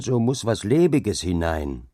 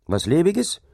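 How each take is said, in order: First: Said in the usual way. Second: High, rising disbelief; incredulous. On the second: A narrator's reading. Dike reeve repeats the laborer's word in disbelief, high and rising. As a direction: repeat the word as if you can't believe it.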